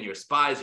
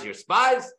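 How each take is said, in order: First: Said in the usual way. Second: Higher, louder, rising you're spies; mock accusation. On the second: Yosef pressing the brothers with a rising accusing taunt. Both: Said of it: "keep saying this over and over again".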